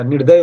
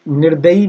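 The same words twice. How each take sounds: First: निर्दय ending "-day"; correct ending without ee. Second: निर्दयी ending "-da-yee"; faulty nir-da-yee, set up for correction; wrong final ee. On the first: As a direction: say निर्दय, stopping on the y. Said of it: "निर्दय होता है". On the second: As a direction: say निर्दयी with an extra long ee. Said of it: "निर्दयी नहीं होता". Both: Shown as a demonstration.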